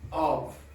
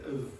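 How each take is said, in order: First: The word is said in its full form. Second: The word is said in a reduced form. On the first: "I certainly didn't say of" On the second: "Or maybe I said of"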